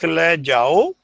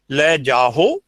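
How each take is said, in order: First: The ending is a plain O vowel, no H. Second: An H sound comes before the final O. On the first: The speaker calls it right. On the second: The speaker calls it wrong.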